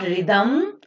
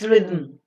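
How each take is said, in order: First: A vowel is sounded before the final m. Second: The final m is syllabic with no vowel. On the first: The speaker calls it wrong. "It is not rhythm" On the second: The speaker calls it right. "it's rhythm"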